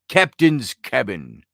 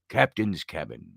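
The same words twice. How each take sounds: First: It is said in his normal voice. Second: It is said in a put-on pirate voice.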